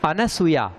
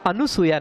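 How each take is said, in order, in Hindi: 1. 'n' के बाद कोई 'u' स्वर नहीं आता। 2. 'n' के बाद 'u' स्वर आता है। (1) "अनसूया इसलिए है क्योंकि अन उपसर्ग है" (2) "अनुसूया नहीं"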